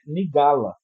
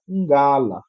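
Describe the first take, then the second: First: A vowel is inserted between the n and g. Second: The word begins directly with a nasal ng sound. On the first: The speaker calls it wrong. "assim como não é nigala" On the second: The speaker calls it right. "é ngala"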